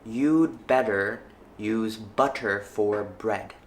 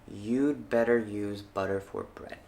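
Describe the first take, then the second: First: The T sounds are clear, not flapped. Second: The T sounds are soft flaps. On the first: "The first time I read each sentence, I will not flap them" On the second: "the second time, I will flap the sentence"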